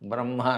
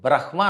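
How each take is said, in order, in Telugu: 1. m ధ్వని h ధ్వని కంటే ముందు వస్తుంది. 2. h ధ్వని m ధ్వని కంటే ముందు వస్తుంది. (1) "హా కింద మా అవుతుందని బ్రహ్మ అనాలి" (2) "బ్రహ్మ అనకూడదు"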